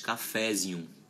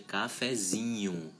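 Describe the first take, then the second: First: The stress falls on the syllable fe. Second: The stress falls on the syllable zi. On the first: The speaker calls it wrong. "a gente não pronuncia mais cafézinho" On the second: The speaker calls it right. "a sílaba tônica estava no radical e ela passa a fazer parte do sufixo"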